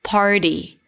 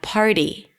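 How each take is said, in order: Both takes have the same delivery.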